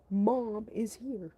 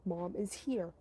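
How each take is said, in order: First: MOM said slow and louder, each word spaced; slow stressed repeat. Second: Said in the usual way. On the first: Retold or imitated. Security guard repeating to the girl, slow and louder. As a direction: spell out "Mom is here" slowly and loudly. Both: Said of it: "His exact words".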